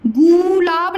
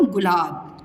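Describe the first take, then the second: First: गुलाब with the first vowel stretched, "gooo-laab"; wrong long vowel. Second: गुलाब quick and low with a short u; गुलाब softer, no stretch on the first syllable; correct short vowel. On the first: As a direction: drag the u in गुलाब. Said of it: "गुलाब नहीं बोलते हो". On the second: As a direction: say गुलाब lightly as "gu-laab". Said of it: "आप क्या बोलते हो". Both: Shown as a demonstration.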